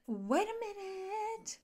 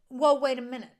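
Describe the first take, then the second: First: High, slow, drawn-out mock disbelief; incredulous. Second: Loud mock double take; alarmed. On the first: Husband hearing his wife mention a baby room, incredulous. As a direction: stretch the last word up high. Second, drawn-out take of alarm. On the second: Husband hearing his wife mention a baby room, alarmed. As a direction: blurt it out to halt her.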